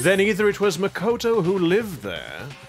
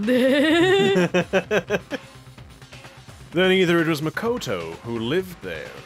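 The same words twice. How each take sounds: First: It is spoken without an American accent. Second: It is spoken in an American accent. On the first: The speaker calls it right. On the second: The speaker calls it wrong.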